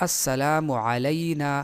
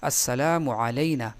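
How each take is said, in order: No difference in how they are said.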